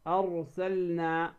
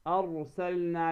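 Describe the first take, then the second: The two takes are said the same way.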